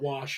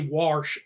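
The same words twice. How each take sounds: First: The word has the standard pronunciation. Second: The word has a regional, nonstandard pronunciation. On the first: This is the usual way to say it. The speaker calls it right. "instead of wash" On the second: This is how the people being mocked say it. The speaker calls it wrong. "say wash instead of"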